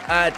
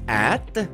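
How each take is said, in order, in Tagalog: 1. Payak ang pagbigkas ng salita, may aksentong Tagalog. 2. Pabibo ang pagbigkas ng salita, may aksentong Ingles. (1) "parang Tagalog kasi yung pagkakasabi ko ng at" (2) "lagyan natin ng konting arte"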